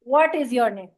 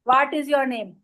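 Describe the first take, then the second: First: The w sound is made with rounded lips. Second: The w sound is made without rounded lips. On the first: It sounds like an English accent. The speaker calls it right. "होंठ को बोल करके" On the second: It marks the speaker as an Urdu speaker. The speaker calls it wrong. "वाट is your name नहीं"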